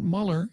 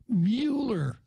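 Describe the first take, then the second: First: The first vowel sounds like in 'mull'. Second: The first vowel sounds like in 'mule'. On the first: The speaker calls it wrong. "so it's not Muller" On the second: The speaker calls it right. "it's Mueller"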